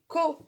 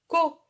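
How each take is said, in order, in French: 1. La syllabe commence par un son K. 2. La syllabe commence par un son K.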